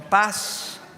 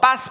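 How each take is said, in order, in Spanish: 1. La palabra se dice suave y alargada. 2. La palabra se corta y es brusca.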